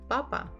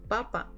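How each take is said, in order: Both takes have the same delivery.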